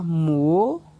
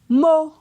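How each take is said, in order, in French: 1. La syllabe est prononcée sur un ton montant. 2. La syllabe est prononcée sur un ton haut. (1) "Ton montant" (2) "Ton haut"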